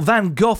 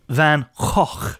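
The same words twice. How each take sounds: First: The name is pronounced the common British way. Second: The name is pronounced a different, non-British way. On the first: The speaker calls it wrong. "as a lot of Brits say" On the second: The speaker calls it right. "apparently the proper way to say it is"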